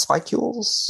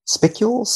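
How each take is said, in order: First: "Spicules" as SPY-kyools, long i, kept high; "Spicules" tried again with a long i like "spy"; alternative pronunciation. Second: "Spicules?" as SPICK-yools, short i, high rising question; "Spicules" tried SPICK-yools and pitched up as a question; questioning pronunciation. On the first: Guest tries the other reading of the word, puzzled. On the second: Guest unsure how to say the word, questioning. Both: Shown as a demonstration. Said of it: "one of the words that I've seen but never heard".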